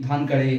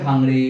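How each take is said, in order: First: ধানকাড়ে said with n and a k sound, dhan-ka-re; alternative pronunciation. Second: ধাংড়ে said with a nasal ng before ড়ে; variant pronunciation. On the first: Teacher showing students another accepted way to say the surname, alternative pronunciation ধানকাড়ে. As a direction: say ধানকাড়ে in three syllables. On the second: Teacher showing students one accepted way to say the surname, variant pronunciation ধাংড়ে. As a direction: say ধাংড়ে in two syllables, dhang-re. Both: Shown as a demonstration. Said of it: "উচ্চারণ বিভিন্ন আছে".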